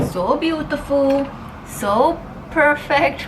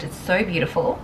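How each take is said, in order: First: High, slow gushing praise; drawn-out swooning quote, pitched up; quoting a video. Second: Said in the usual way. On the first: Retold or imitated. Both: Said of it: "I love that video".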